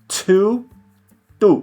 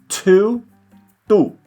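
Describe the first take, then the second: No difference in how they are said.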